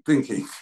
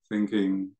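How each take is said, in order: First: It is said in a harsh, aversive tone. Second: It is said in a soft, gentle tone. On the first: The mind is judging itself. The speaker calls it wrong. "noting with a kind of aversive tone" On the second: The mind is relating to it without aversion. The speaker calls it right. "we just soften it"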